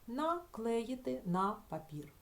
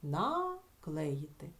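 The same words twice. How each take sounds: First: Slow, careful dictation of the phrase; teacher reading an example slowly; slow demo reading. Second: Наклеїти drawn out very slowly; teacher isolating the word slowly; very slow demo word. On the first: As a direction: read it out slowly for the class. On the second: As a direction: stretch Наклеїти out syllable by syllable. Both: Shown as a demonstration. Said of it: "Чи можемо ми ось тут вставити якесь слово?".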